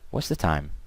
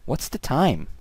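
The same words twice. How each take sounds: First: It is said flat with no word stressed. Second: The word time carries clear stress. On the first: "this was just bland speaking" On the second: "stress and intonation on the word time"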